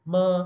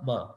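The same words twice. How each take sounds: First: The syllable is held on a steady level pitch. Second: The syllable is said lightly with no set pitch. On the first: "straight line में पढ़ना है" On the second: "उसमें कोई जोर नहीं लगाना, उसको किसी पिच के मुताबिक नहीं पढ़ना"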